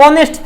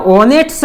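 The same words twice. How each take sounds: First: ઓનેસ્ટ begun on the vowel, no H; silent H. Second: ઓનેસ્ટ said as spelled, with the H sounded. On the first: Teacher showing how honest is pronounced, ઓનેસ્ટ with a silent H. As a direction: say ઓનેસ્ટ as "o-nest". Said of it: "પણ એનો ઉચ્ચાર ઓનેસ્ટ થતો હોય". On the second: Teacher showing how honest is written, ઓનેસ્ટ with a sounded H. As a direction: read ઓનેસ્ટ letter for letter, "ho-nest". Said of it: "લખાય ઓનેસ્ટ". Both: Shown as a demonstration.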